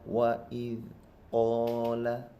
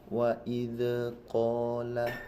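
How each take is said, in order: First: The consonant is held firmly without a bounce. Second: The consonant is released with an echoing bounce. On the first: The speaker calls it right. "Yang benar wa id qala" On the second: The speaker calls it wrong. "kesalahan yang sering terjadi wa id qala. Ini salah"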